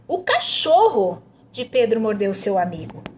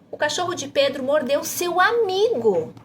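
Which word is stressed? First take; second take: cachorro; amigo. First: The emphasis falls on "cachorro". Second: The emphasis falls on "amigo". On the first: "tá pedindo para enfatizar o cachorro" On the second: "para você enfatizar seu amigo"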